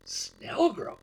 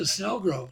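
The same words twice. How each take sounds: First: SNELLGROVE echoed high in mock disbelief; imitated incredulous repeat; retold startled echo. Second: Said in the usual way. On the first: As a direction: repeat Snellgrove as a taken-aback pilot, pitched up. Pilot's startled echo of destination.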